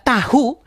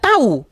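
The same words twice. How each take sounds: First: The h sound in the word is pronounced. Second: The h sound in the word is dropped. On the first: "Yang satu tahu ada" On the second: "yang satu tahu, hanya hilang"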